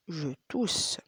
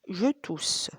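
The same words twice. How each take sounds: First: Whisper. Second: Said in the usual way. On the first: Shown as a demonstration. Teacher whispers the phrase on the repeat. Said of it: "whispered take after voiced one". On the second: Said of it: "voiced take before whisper".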